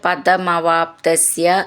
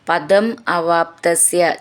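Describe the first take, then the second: First: The words are run together as one word. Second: The words are said as separate words.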